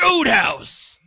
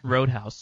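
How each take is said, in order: First: It is said loudly, with enthusiasm. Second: It is said flatly, without enthusiasm.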